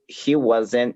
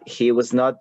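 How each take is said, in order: First: The negative is contracted into one word. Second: The negative is said as two full words.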